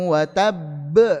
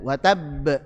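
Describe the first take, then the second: First: The final b bounces with extra force. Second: The final b bounces with ordinary force. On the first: The speaker calls it wrong. "Lebih ditekan lagi karena akbar. Nah, ini salah" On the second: The speaker calls it right. "be sama"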